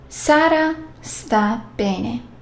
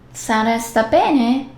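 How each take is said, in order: First: It is said with statement intonation. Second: It is said with question intonation. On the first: Sara is well. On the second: Asks whether Sara is well.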